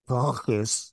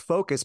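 First: The word is pronounced so it resembles fungus. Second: The word is pronounced in the ordinary way. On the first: The speaker calls it wrong. "he'd say focus like fungus" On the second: The speaker calls it right. "So it's focus"

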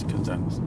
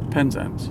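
First: The stress is on the second syllable. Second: The stress is on the first syllable.

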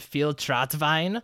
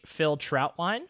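First: The name is said in a German accent. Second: The name is said in a plain American accent.

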